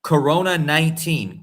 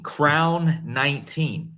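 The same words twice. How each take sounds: First: Said in the usual way. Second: "crown" drawn out and stressed, very slow. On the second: Shown as a demonstration. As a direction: spell out "crown nineteen" word by word. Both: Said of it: "That's what it means".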